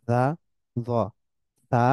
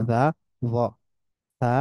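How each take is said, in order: No difference in how they are said.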